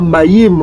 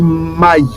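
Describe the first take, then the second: First: The final consonant is clearly pronounced. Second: The final consonant is silent. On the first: The speaker calls it wrong. "On ne dit pas maïm" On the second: The speaker calls it right. "La consonne finale va être sourde"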